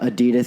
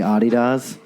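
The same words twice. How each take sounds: First: It is said the common American way. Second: It is said the original, non-American way. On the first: The speaker calls it wrong. "Just America. Fucked it up" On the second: The speaker calls it right. "is actually"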